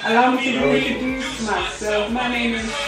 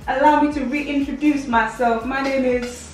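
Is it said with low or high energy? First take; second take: low; high. First: It is said with plain, low energy. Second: It is said with more energy and sass.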